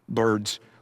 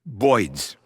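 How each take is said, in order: First: The word is said in a standard accent. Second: The word is said in a Brooklyn accent.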